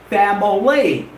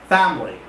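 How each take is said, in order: First: The word is said with three syllables. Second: The word is said with two syllables. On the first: The speaker calls it wrong. "It's wrong to say family. ... it does not have three syllables" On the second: The speaker calls it right. "It has two syllables. The right pronunciation is family"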